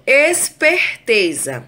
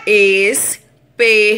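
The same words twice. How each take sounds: First: Said in the usual way. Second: "esperteza" split as es, per, te, za; syllable by syllable. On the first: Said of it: "Na separação silábica fica esperteza". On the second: Shown as a demonstration. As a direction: pause after each syllable of "esperteza". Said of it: "Na separação silábica fica".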